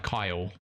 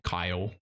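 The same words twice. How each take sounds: First: British accent. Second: Said in the usual way. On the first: Shown as a demonstration. Saying goodbye to Kyle, in a light British accent. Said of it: "I'll just say it British". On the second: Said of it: "I love it, Kyle".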